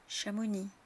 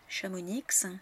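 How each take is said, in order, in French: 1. La consonne finale est muette. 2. La consonne finale est prononcée. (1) "le S ou le X ou le Z final ne sont pas prononcés" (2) "Beaucoup de Français se trompent et prononcent ces noms de villes de travers"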